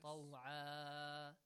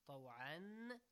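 First: The word ends with a long a vowel. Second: The word ends with an n sound. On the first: "the tanwin fatha changes to alif mad" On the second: "any word having tanwin fatha"

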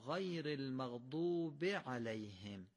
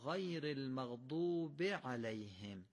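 First: The short vowels are kept short. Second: The same.

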